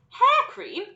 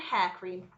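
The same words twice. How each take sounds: First: Very high, loud questioning exclamation; incredulous cry. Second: Said in the usual way. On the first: A narrator's reading. Mike cries out at the odd item on the sign, incredulous. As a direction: echo it in disbelief. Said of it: "cried Mike T V".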